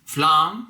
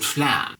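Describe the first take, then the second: First: "Flan?" with a long open ah, as in father, rising; flahn, broad a. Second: "flan" with a flat short a, as in cat. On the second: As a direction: say "flan" rhyming with "can". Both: Shown as a demonstration. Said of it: "Or is it flan?".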